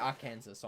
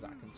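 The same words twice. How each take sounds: First: The ending sounds like 'Kansas', s pronounced. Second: The ending sounds like 'saw', s silent. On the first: This follows the spelling of the name. "it should be Arkansas, honestly. Because that's how it's spelled" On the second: This is the legally required pronunciation. "It's a state law to pronounce Arkansas as Arkansas"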